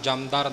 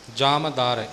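First: No vowel follows the first syllable. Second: A short 'u' vowel follows the first syllable. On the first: The speaker calls it wrong. "ਜਮਦਾਰ ਨਹੀਂ ਬੋਲਣਾ" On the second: The speaker calls it right. "ਦੁਲੈਂਕੜ ਦੇ ਨਾਲ ਹੈ ਪਾਠ"

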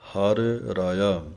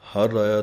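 First: The two r sounds are kept clearly separate. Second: The two r sounds run together into one. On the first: The speaker calls it right. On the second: The speaker calls it wrong.

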